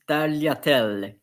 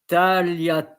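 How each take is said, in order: First: It is pronounced with Italian sounds. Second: It is pronounced with French sounds. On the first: "normally in Italian it's tagliatelle" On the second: "you can say tagliatelle"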